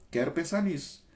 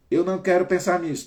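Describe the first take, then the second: First: "Quero pensar nisso" higher but at normal loudness, stress on "pensar"; same sentence with "não" removed, firmer and calmer; without the no. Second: "Eu não quero pensar nisso" high, loud and fast, punching "quero"; anxious loud insisting on "não"; emphatic refusal. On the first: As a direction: say it again as an affirmation, without "não". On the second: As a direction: blurt out the negative thought with force. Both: Shown as a demonstration. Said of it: "Tira o não".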